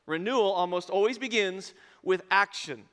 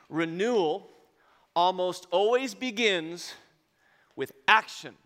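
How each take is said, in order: First: Said in the usual way. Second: Slow and loud, word by word; stress. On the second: Shown as a demonstration. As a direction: hammer each word home, slowly.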